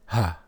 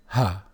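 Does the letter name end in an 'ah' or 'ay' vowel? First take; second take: ah; ah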